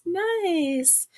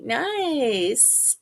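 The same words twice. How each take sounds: First: A lifted, sing-song second Nice; playful higher repeat of Nice; higher echo. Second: Said in the usual way. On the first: Shown as a demonstration.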